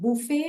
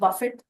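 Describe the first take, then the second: First: It ends in a vowel with no t sound. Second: It ends with a clearly pronounced t sound. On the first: It names a self-service meal. "बुफे और बफेट ये दो बहुत ही अलग sound के words हैं" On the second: It means to strike something repeatedly with force. "इसमें हम टी pronounce करेंगे"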